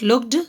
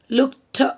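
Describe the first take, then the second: First: The word does not end with a t sound. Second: The word ends with a t sound. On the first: The speaker calls it wrong. "This is not looked" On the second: The speaker calls it right. "t sound again"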